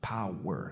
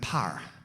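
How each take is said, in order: First: The word is said with two syllables. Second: The word is said with one syllable. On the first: "That's two syllables" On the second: "P A R"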